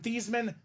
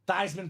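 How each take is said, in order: First: The name does not rhyme with Heisman. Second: The name rhymes with Heisman. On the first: This is the family's original pronunciation. "change your name from Thiesman" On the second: This is the new pronunciation chosen for a campaign. "to Theismann so we can campaign Theismann for the Heisman"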